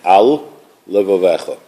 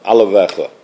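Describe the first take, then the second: First: The two L sounds are kept apart. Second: The two L sounds merge into one. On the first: The speaker calls it right. "pronounce it carefully" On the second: The speaker calls it wrong. "You don't make it sound like one lamed"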